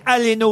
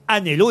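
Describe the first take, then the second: First: The L sound comes before the N sound. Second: The N sound comes before the L sound. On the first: The speaker calls it right. "c'est Yannick Aleno" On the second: The speaker calls it wrong. "et pas Anello"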